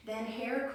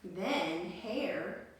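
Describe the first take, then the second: First: Slow with Hare leaned on firmly; stress on Hare. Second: Said in the usual way. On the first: Shown as a demonstration. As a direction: linger on the word Hare to teach it. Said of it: "You can call him a hare". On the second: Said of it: "That's another word for the rabbit".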